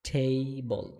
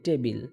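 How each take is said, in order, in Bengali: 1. প্রথম t aspirated, নিঃশ্বাস সহ। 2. প্রথম t সাধারণ, কোনো নিঃশ্বাস ছাড়া। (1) "এটা হবে টেবল টেবল ঠ উচ্চারণ হবে" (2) "এটা মূলত উচ্চারণ টেবিল হবে না"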